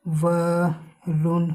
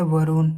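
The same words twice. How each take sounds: First: वरुण very slowly as व, pause, रुण; slow, low sounding-out of वरुण; syllable by syllable. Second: Said in the usual way. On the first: Shown as a demonstration. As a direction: stretch and split वरुण for learners. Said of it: "जैसे". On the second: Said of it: "क्या है?".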